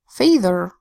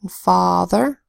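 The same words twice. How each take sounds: First: The first vowel is a long 'ay' sound. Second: The first vowel is a broad 'ah' sound. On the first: The speaker calls it wrong. "could you imagine saying" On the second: The speaker calls it right. "All of these make the broad A sound ah"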